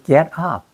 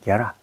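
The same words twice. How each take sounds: First: The two words are said separately. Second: The two words are linked together smoothly. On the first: The speaker calls it wrong. "이렇게 하는 게 아니고" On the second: The speaker calls it right. "get up이 합해가지고"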